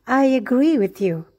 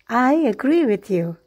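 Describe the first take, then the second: Both takes have the same delivery.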